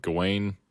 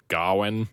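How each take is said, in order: First: "Gawain" as go-WAYN; habitual pronunciation. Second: "Gawain" as GAH-win; film's pronunciation. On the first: Host giving his own way of saying the knight's name, "Gawain" as go-WAYN. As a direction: say "Gawain" with a long "ay" in the second syllable. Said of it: "I've always pronounced it". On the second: Host quoting the film's way of saying the name, "Gawain" as GAH-win. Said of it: "they pronounce it". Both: Shown as a demonstration.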